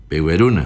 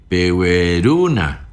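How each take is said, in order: First: Said in the usual way. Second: Slow "Pehueruna" with the stress on ru before the na; stress before the ending. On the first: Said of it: "el plural pone el P". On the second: Shown as a demonstration. Teacher drilling the plural pleading form, stressing ru. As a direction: drag it out, leaning on ru. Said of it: "antes va a acentuar".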